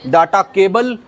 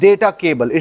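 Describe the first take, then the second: First: The first vowel of data sounds like 'ah'. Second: The first vowel of data sounds like 'ay'. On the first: The speaker calls it wrong. "जिसे आप डाटा बोलते हो" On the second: The speaker calls it right. "The correct pronunciation is डेटा"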